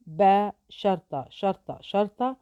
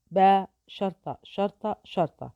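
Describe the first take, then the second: No difference in how they are said.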